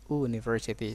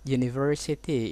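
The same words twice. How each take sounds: First: The word begins with a plain vowel sound. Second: The word begins with a 'y' sound. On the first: The speaker calls it wrong. "bukan university" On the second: The speaker calls it right. "bacaannya adalah y, u"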